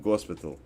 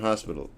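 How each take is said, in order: No difference in how they are said.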